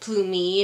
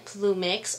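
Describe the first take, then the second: First: The name ends without any final x sound. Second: The name ends with a final x sound.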